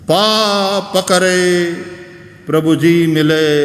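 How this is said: The words are said slowly and split apart.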